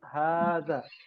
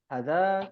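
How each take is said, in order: First: The first vowel is held long. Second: The first vowel is cut short. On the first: The speaker calls it right. "Tapi hadza" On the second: The speaker calls it wrong.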